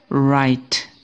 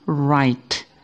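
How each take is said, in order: No difference in how they are said.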